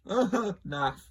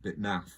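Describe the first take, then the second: First: "Naff" said high and loud through a laugh. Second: Said in the usual way. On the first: Shown as a demonstration. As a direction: chuckle out "Naff" as the punchline. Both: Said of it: "You get it?".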